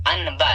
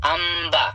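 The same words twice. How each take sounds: First: अनबा with a clear न before the ब; the incorrect way, sounding न plainly; अनबा said the wrong way on purpose; wrong reading. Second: अम्बा with the न turned into म; correct iqlab. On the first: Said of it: "ये गलत होगा". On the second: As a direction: close the lips so the न becomes म before ब. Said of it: "क्या पढ़ना है?". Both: Shown as a demonstration.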